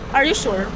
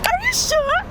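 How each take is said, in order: First: It is said in an angry tone. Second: It is said in a surprised tone.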